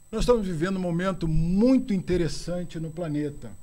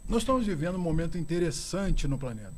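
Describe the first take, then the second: First: It is said very slowly. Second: It is said at a normal pace.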